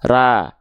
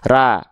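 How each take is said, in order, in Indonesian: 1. Tipis, dengan vokal 'a' yang terbuka dan jelas. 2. Tipis, dengan vokal 'a' yang terbuka dan jelas.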